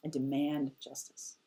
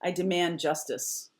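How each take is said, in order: First: Softer, low and firm; quiet demand. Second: Said in the usual way. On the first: Shown as a demonstration. Demanding justice in a quiet menacing voice. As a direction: say it quiet and cold. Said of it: "He goes really quiet". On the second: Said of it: "sharpness or an assertion".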